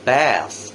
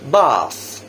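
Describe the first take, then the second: First: American accent, with a flatter 'eh'-like vowel. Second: British accent, with an open 'ah' vowel. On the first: "the American later" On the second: "the British version first"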